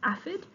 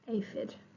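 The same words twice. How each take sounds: First: The first vowel is short. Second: The first vowel is long. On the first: The speaker calls it wrong. "double F must be next to a short vowel. So that if it was this one, it would be aphid, which is not right" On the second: The speaker calls it right. "So it has to be aphid"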